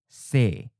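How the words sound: The final is the e version. "We'll first read the common south or inland leaning pronunciation"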